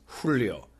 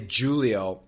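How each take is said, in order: First: The name is said with its native pronunciation. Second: The name is said with an American pronunciation. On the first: The speaker calls it right. "but I'm sure the pronunciation is Julio" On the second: The speaker calls it wrong. "In America, we want to say Julio"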